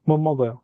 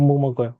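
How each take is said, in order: The two takes are said the same way.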